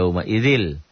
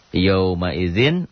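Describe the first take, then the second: First: The n turns into an l sound. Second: The word ends with an n sound.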